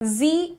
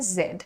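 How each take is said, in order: First: The letter is said as 'zee', American style. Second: The letter is said as 'zed', British style. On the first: "American accent में" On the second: "British English में बोला जाता है"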